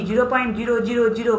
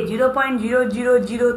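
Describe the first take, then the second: No difference in how they are said.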